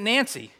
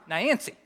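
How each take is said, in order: First: The name is said in a plain, general accent. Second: The name is said in a Southern accent. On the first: "the name Nancy isn't Nancy" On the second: "That's how they say Nancy down there"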